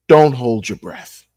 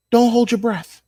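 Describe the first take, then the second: First: Said in the usual way. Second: Much higher, mocking singsong take on 'Don't hold your breath'. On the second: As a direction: squeak it up high like a mocking echo. Mocking the school's refund promise.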